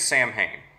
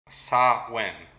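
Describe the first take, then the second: First: It is said as spelled, 'Sam Hain'. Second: It is said like 'sah-win', with a w sound. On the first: The speaker calls it wrong. "if you're just going to pronounce it as it looks like it's spelled" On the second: The speaker calls it right. "how you correctly say it"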